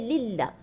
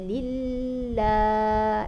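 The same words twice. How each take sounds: First: The L sound is fully stopped, with no flow. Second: The L sound is held for too long. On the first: "Dia tak ada terlepas pun sikit" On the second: "Lama sangat di tahan di situ"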